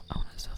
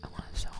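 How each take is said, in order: Both takes have the same delivery.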